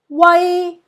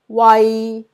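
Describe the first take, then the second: First: It is said with Cantonese tone one. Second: It is said with Cantonese tone three.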